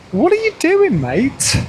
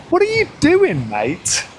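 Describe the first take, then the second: First: High, loud call to a reckless driver; shouting at a driver. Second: Shouting at a driver. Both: Real, not acted. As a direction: yell it out, half amused.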